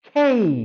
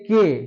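First: It is said in a British English accent. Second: It is said in a Bengali-style accent. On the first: The speaker calls it right. "উচ্চারণটা হবে খেই" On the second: The speaker calls it wrong. "আমরা বলি কে"

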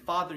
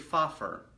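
First: The middle sound is a soft 'th' sound. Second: The middle sound is an 'f' sound. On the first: The speaker calls it right. "so instead of you saying father" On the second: The speaker calls it wrong. "you say fafer"

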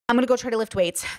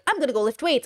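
First: It is said wearily, with a sigh. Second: It is said eagerly, without a sigh.

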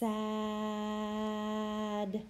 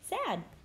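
First: The word is stretched out slowly, sound by sound. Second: The word is said quickly, as one whole word. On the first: The reader is sounding out each letter. "we're gonna sound it out again" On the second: The reader is blending the sounds into the word. "okay, say it fast"

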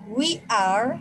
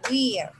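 First: Both words are said fully and separately. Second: The words are merged into one short syllable. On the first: "forma larga" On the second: "forma corta"

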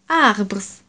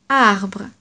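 First: A final S sound is pronounced at the end. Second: No final S sound is pronounced at the end. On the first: The speaker calls it wrong. "in French we don't say arbres" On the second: The speaker calls it right. "we don't pronounce the S at the end"

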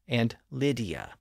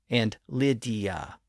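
Both takes have the same delivery.

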